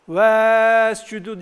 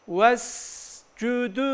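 First: The first vowel is drawn out long. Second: The first vowel is short and linked on. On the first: The speaker calls it wrong. "Vescüdü diye okuyan arkadaşlarımız olabilir. Hayır" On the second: The speaker calls it right. "Direkt sin harfine vuracağız"

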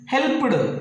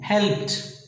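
First: The ending is not a t sound. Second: The ending is a t sound. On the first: The speaker calls it wrong. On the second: The speaker calls it right. "T sound"

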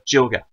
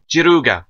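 First: It is said with English pronunciation and an L. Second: It is said with Japanese pronunciation and an R.

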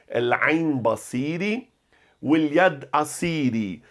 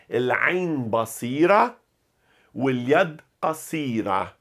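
First: The rhyming words end with an 'ee' sound. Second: The rhyming words end with an 'ah' sound.

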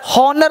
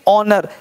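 First: The word begins with an h sound. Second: The word begins with a vowel, no h. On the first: The speaker calls it wrong. "हॉनर नहीं बोलेंगे" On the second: The speaker calls it right. "क्या बोलेंगे ऑनर"

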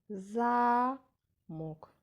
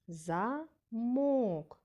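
First: The stress is on the first syllable. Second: The stress is on the second syllable. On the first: "в цьому слові склад голосніше вимовлявся перший" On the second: "Правильно, другий склад"

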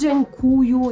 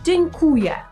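First: The word ends with an 'oo' sound. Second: The word ends with an 'eh' sound. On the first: The speaker calls it wrong. "Nie dziękuju" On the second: The speaker calls it right. "tylko dzień, jak słowo dzień dobry, tak samo dzień, kuje"

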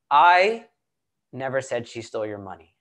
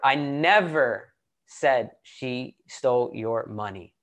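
First: The stress falls on the word 'I'. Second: The stress falls on the word 'never'. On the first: Someone else may have said it. "Let's emphasize one word at a time in the statement, right? So let's do the first one" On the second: This never happened at all. "And then let's emphasize the second word"

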